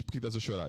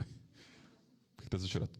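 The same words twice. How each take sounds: First: Said in the usual way. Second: Slow, breathy whispered question. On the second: Retold or imitated. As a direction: whisper the question slowly and gently. Re-enacting the question, hushed. (pergunta sussurrada devagar)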